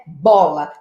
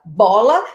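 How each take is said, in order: First: "Bola." said low with a falling tune; example word said low. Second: "Bola," with a rising, questioning tune; example word rising. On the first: Teacher gives the example word "Bola." low and falling. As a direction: drop "Bola." down and let it fall. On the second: Teacher repeats "Bola," with a rising tune. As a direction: lift "Bola," up at the end. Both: Shown as a demonstration. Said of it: "nós temos uma palavra".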